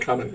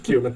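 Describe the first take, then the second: First: The word sounds like 'coming'. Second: The word sounds like 'Cuban'. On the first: "Is it only supposed to be pronounced coming? I'm never saying coming" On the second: "It's Cuban"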